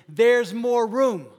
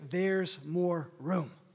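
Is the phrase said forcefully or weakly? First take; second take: forcefully; weakly. First: It is said forcefully, with much energy. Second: It is said weakly, with little energy. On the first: The speaker calls it right. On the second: The speaker calls it wrong.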